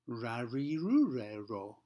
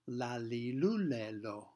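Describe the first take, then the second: First: The consonant is made with the tongue curled back. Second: The consonant is made with the tongue forward. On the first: "curling the tongue up and back" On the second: "If we put the tongue further forward, it's going to sound like this"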